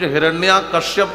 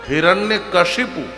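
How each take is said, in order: First: The first word ends in a long vowel. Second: The second word is said as kashipu. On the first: The speaker calls it wrong. "कुछ हिरण्या कश्यप कहते हैं" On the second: The speaker calls it right. "शुद्ध नाम है हिरण्य कशिपु"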